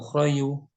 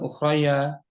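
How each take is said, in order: First: The word ends with an added yu sound. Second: The word ends with an added ya sound. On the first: "atau ukhrayu" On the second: "bukan ukhraya"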